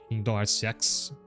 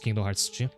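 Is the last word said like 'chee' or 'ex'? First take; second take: ex; chee. First: The last word sounds like 'ex'. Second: The last word sounds like 'chee'. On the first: The speaker calls it wrong. "the mobile game is called Kingdom Hearts X" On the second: The speaker calls it right. "but it's pronounced Kingdom Hearts G"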